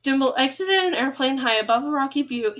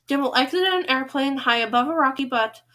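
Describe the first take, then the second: First: "butte" said as byoot, rhyming with cute; "rocky butte" pronounced byoot; corrected word. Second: "butt" said like the word but, short u; "rocky butt" with a plain short-u but; misread word. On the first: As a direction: read "butte" with a y-glide and long oo. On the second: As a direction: read "butt" as bʌt, rhyming with cut. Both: Shown as a demonstration. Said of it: "oh, it's Butte".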